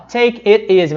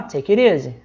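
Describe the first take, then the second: First: "Take it easy" with "it" dropped, as /tek ezɪ/; wrong pronunciation. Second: "take it easy" linked as /teki ɾ izi/ with a flapped t; right pronunciation. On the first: Teacher showing students the wrong way, choppy. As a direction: say "Take it easy" choppy, without the linking flap. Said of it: "mas a gente não fala assim". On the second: Teacher showing students the right way, linked flap. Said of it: "a gente fala". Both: Shown as a demonstration.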